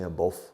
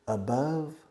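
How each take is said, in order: First: The last syllable does not rhyme with love. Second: The last syllable rhymes with love. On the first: The speaker calls it wrong. "you Spanish people always make mistakes in your pronunciation of above. You say above" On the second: The speaker calls it right. "Above rhymes, rima with love"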